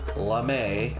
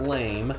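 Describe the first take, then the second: First: It is said as two syllables, ending in ay. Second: It is said as one syllable, rhyming with game. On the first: It means a shiny metallic fabric. The speaker calls it right. "as in the fabric type" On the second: It means weak or unimpressive. The speaker calls it wrong. "not lame"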